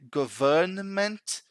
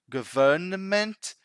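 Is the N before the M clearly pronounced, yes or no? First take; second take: yes; yes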